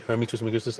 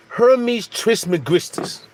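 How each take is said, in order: First: Said in the usual way. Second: 'Hermes Trismegistus' sounded out slowly, syllable by syllable; careful pronunciation. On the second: Shown as a demonstration. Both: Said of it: "I think that's how you say it".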